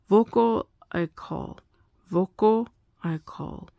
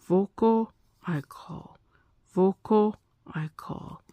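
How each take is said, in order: The two takes are said the same way.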